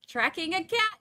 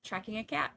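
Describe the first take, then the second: First: Cat said higher and louder with a rise; high emphatic correction. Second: Said in the usual way. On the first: Shown as a demonstration. Correcting viewers, high-pitched insistent. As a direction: chirp it up high to set the record straight. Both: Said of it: "Not hurting".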